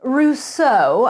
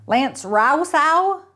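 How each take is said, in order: First: Rousseau as "Roo-SOH", crisp French vowels with a correcting rise; French pronunciation. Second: Rousseau said slowly as "Row-sow", both syllables rhyming with cow; clerk butchering the name. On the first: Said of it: "I corrected him with my meticulous French accent". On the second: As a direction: drag out Rousseau as "Row-sow", mangled and rising. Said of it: "butchered the pronunciation of my last name". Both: A narrator's reading.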